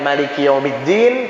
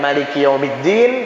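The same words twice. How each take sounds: First: The vowel after m is short. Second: The vowel after m is short.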